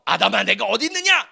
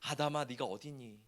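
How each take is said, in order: First: It is said in an angry voice. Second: It is said in a tender, longing voice.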